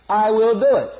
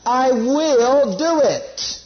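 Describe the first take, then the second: First: Said in the usual way. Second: Very slow, drawn-out "I will do it"; emphatic promise. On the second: Shown as a demonstration. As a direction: stretch each word of "I will do it" with weight. Drives home the quoted promise.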